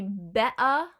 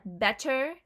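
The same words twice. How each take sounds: First: "bea" for better, throat catch for the T's; louder "bea", be'-uh with no T; glottal stop. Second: Said in the usual way. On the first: Shown as a demonstration. Teacher showing Cockney better, "bea" with glottal stop. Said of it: "glottal stop those two T's". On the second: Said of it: "it would be bea".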